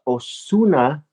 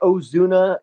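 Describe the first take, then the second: First: The middle consonant is a plain Spanish s. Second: The middle consonant is a buzzing z sound.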